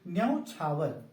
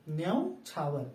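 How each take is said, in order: The two takes are said the same way.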